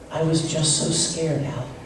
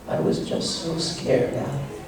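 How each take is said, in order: First: The voice stays steady and even throughout. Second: The voice has small breaks and wavers softly.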